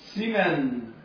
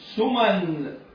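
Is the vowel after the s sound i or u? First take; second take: i; u. First: The s is followed by an i vowel. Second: The s is followed by a u vowel. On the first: "وبكسر السين" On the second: "بضم السين"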